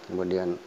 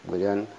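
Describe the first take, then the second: The two takes are said the same way.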